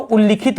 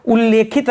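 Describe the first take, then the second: First: उल्लिखित with a short i, ul-li-khit; corrected उल्लिखित, short i after ल; लि vowel. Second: उल्लेखित with a long e, ul-le-khit; wrong form उल्लेखित, long e after ल; ले vowel. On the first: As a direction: say लि, not ले, in उल्लिखित. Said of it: "उल्लिखित होता है". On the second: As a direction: say ले clearly in उल्लेखित. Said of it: "उल्लेखित नहीं होता". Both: Shown as a demonstration.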